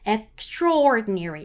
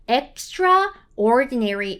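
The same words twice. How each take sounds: First: "extraordinary" run together, slow and stretched, with the A almost gone; natural pronunciation. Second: "extraordinary" as two separate words, extra plus ordinary, A fully sounded; over-literal pronunciation. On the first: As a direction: glide through "extraordinary" as one word, barely any A. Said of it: "A 발음이 거의 없다라고 생각하시고 읽으셔야지 자연스러워져요". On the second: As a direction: say "extraordinary" too faithfully to its spelling, pronouncing the A. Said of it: "이렇게 너무 정직하게 읽어주시면 안 되고요". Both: Shown as a demonstration.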